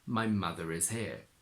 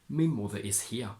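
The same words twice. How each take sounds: First: An r sound links mother to is. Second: No r sound links mother to is.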